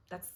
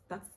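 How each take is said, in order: Both takes have the same delivery.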